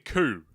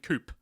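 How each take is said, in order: First: The word ends on a vowel with no p. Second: The word ends with a sounded p. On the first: The speaker calls it right. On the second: The speaker calls it wrong.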